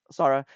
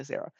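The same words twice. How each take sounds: First: Sarah said the Japanese way, "Sah-rah" with an open a; Sarah as "Sah-rah", both a's like in father; Japanese pronunciation. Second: Sarah said the English way, "Sair-uh"; Sarah with the first a as in air, "Sair-uh"; English pronunciation. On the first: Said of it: "that's how you, like, pronounce it in Japanese". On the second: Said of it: "but I'm gonna say Sarah". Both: Shown as a demonstration.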